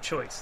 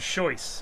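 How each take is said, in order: First: The word starts with a ch sound. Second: The word starts with a soft sh sound. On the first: This is the standard pronunciation. The speaker calls it right. "instead of choice" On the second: This is how Swedish speakers say it. The speaker calls it wrong. "They say it with soft sh"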